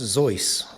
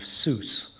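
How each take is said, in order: First: The vowel sounds like the one in voice. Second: The vowel sounds like the one in juice. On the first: This is the original German family pronunciation. "His German family name was actually pronounced Zeus, rhymes with voice" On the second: This is the anglicized pen-name pronunciation. "the more phonetic pronunciation of Seuss, which rhymes with juice"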